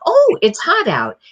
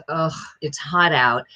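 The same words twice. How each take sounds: First: Much higher, louder, happy lilt; delighted oh. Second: Annoyed ugh. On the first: Voice coach demoing someone who loves heat, delighted. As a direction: sound thrilled the heat is here. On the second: Voice coach demoing someone sick of the heat, fed up. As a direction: complain about the heat. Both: Shown as a demonstration. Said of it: "feels differently about heat".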